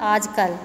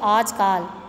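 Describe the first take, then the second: First: The second syllable has a short 'a' vowel. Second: The second syllable has a long 'aa' vowel. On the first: The speaker calls it right. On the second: The speaker calls it wrong.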